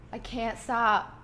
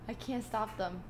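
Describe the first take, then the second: First: Slow, hiccup-broken speech; struggling through hiccups. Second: Quiet, holding hiccups back; swallowing hiccups mid-sentence; suppressing hiccups. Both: Real, not acted.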